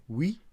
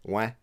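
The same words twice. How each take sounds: First: Said in the usual way. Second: "ouais" as a broad, short "weh"; Quebecois pronunciation. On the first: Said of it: "so instead of saying". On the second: Shown as a demonstration. Husband showing his Quebecois slip in French, broad "ouais". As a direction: say "ouais" like "weh", lips barely working. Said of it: "I would say".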